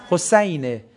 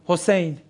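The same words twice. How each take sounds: First: حسینه said Hosayn-e, with an a; original Arabic pronunciation. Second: حسین said Hosein, with an e; Persian pronunciation. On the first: Teacher correcting the name, حسینه with Arabic ay as Hosayn-e. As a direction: open ay vowel in حسینه, Hosayn-e. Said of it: "اسم حضرت حسین نیست". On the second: Teacher showing how Persians say it, حسین as Hosein. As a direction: Persian e vowel in the second syllable of حسین. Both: Shown as a demonstration.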